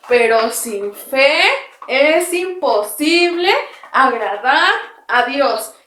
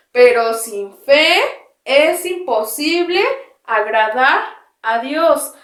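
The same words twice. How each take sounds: First: Slow verse chanted while hopping; recited while jumping. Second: Drawn-out verse with arms out to the sides; slow recitation. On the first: Teacher jumping with the children, chanting the verse slowly. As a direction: bounce through the verse as you jump. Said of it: "Ahora saltando". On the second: Teacher reciting the verse, arms spread, slow and drawn out. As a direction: lead the verse slowly for the class to echo. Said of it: "vamos, después de mí". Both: Shown as a demonstration.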